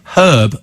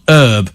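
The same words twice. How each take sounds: First: The word starts with a spoken h sound. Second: The word starts without any h sound. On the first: The speaker calls it right. "because it's got an H in it" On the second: The speaker calls it wrong. "the Americans call it herbs"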